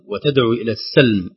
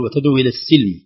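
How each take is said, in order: First: السلم said with a fatha on the س; correct السلم. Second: السلم said with a kasra on the س; wrong السلم. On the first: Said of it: "كلمة السلم". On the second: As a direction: mispronounce السلم with an i sound. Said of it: "البعض يقول". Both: Shown as a demonstration.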